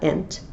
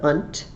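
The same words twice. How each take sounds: First: "ent" said with an eh vowel; "ent" ending sound. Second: "unt" said with an uh vowel; "unt" ending sound. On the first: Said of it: "it's got the unt". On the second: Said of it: "not ent". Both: Shown as a demonstration.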